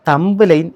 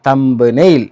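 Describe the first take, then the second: First: The word ends with a 'line' sound. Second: The word ends with a 'nail' sound. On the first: The speaker calls it wrong. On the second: The speaker calls it right.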